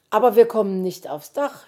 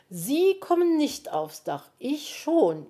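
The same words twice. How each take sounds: First: Said in the usual way. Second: "Sie" drawn up high, set against "ich"; stress on Sie. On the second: A narrator's reading. Magpie correcting the fox, "Sie" stressed high in contrast. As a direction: punch "Sie" high, then answer with "ich".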